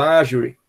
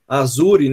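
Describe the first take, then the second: First: It is pronounced the English way. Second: It is pronounced the Portuguese way. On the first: "que é em inglês" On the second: "como a gente pronuncia em português"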